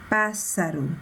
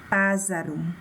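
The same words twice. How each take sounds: First: The middle consonant is a hissing s sound. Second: The middle consonant is a buzzing z sound. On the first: The word is spelled with two S letters. The speaker calls it right. "dois S, para que ele, o S mantenha o seu som normal" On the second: The word is spelled with only one S. The speaker calls it wrong. "Se eu colocasse apenas um S... Como ficaria essa pronúncia?"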